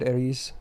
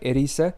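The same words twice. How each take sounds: First: The name is pronounced the English way. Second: The name is pronounced the Japanese way. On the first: The speaker calls it wrong. "I always said Erise. I don't know. It sounds natural" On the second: The speaker calls it right. "It's supposed to be like Erise, because that's how it's in Japanese"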